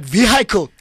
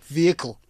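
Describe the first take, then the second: First: "vehicle" with a sounded H, vee-HY-kel; slip-up pronunciation. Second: "vehicle" with silent H, VEE-uh-kul; corrected pronunciation. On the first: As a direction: say "vehicle" as vee-HIGH-kul. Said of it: "sometimes I still do slip up". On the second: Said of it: "sorry, vehicle". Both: Shown as a demonstration.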